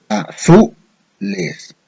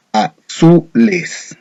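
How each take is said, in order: First: "azules" split slowly, pitch raised on the middle syllable "zu"; very slow, higher "a-ZU-les" showing the accented syllable; stress on ZU. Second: "azules" broken slowly into separate syllables. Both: Shown as a demonstration. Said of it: "¿Dónde lleva la mayor fuerza de voz".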